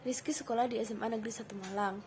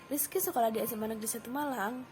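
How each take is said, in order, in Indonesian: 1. Kalimatnya diucapkan dengan intonasi datar dan rendah. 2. Kalimatnya diucapkan dengan intonasi sedang. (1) "intonasi yang datar atau rendah" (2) "bisa menggunakan intonasi sedang"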